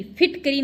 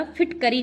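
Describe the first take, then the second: First: फिटकरी as phit-kiri; wrong form. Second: फिटकरी as phit-ka-ri; short a after क in फिटकरी; correct form. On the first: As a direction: squeeze an i after क in फिटकरी. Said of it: "फिटकरी नहीं होता". (गलत उच्चारण, फिटकिरी) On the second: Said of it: "फिटकरी होता है". (सही उच्चारण, फिटकरी) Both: Shown as a demonstration.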